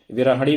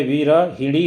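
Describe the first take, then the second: First: विरहणी said without the i sound after ह; विरहणी as the wrong form, no i after ह. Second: विरहिणी said slowly with a clear i after ह; विरहिणी, vi-ra-hi-ni, each syllable spelled out slowly; correct form. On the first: Teacher reads the wrong form to students, विरहणी without the i after ह. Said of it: "विरहणी भी गलत है". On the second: Teacher models the correct form for students, विरहिणी slow with a clear i after ह. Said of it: "विरहिणी होता है". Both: Shown as a demonstration.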